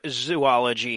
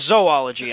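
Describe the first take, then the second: First: The first syllable sounds like 'zoo'. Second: The first syllable sounds like 'zo'. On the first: The speaker calls it wrong. "we're dealing with the word zoology here" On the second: The speaker calls it right. "or zoology, I'm sorry"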